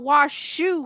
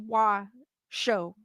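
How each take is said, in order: First: The last syllable sounds like 'shoe'. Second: The last syllable sounds like 'show'. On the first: The speaker calls it wrong. "I was thinking it's like the Wash Shoe Club. So that's why I was kind of pronouncing it like that" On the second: The speaker calls it right. "but maybe it is Wa Show"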